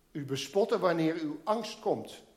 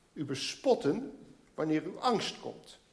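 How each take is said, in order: Both takes have the same delivery.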